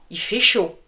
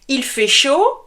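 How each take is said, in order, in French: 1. Le pronom il est raccourci. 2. Le pronom il est prononcé en entier.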